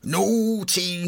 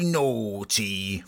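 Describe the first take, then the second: First: High, sing-song teasing Naughty. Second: Said in the usual way. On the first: Pretend. Guest teasing listeners about the song, high mock warning.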